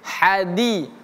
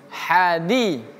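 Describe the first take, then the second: Both takes have the same delivery.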